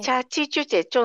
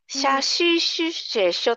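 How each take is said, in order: First: The syllables begin with a ch sound. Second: The syllables begin with an sh sound. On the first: It sounds like baby talk. "ちょっと幼児言葉になっている" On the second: The speaker cannot pronounce the sounds clearly. "はっきり言えなくて、しゃししせしょとか"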